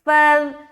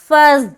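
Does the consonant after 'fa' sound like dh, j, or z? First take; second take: dh; z. First: The consonant is a soft 'dh' sound. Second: The consonant is a hard, hissing 'z' sound. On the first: The speaker calls it right. "फ़ाज़ाल ज़बर फ़ज़" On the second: The speaker calls it wrong. "पहली जो सूरत है जा अदा हो रहा है"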